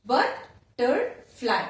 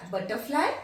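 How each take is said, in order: First: "butterfly" slowly split as but, ter, fly; syllable by syllable. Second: Said in the usual way. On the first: Shown as a demonstration. Teacher repeats the second example, syllable by syllable. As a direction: sound out "butterfly" in three separate beats. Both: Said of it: "three syllable".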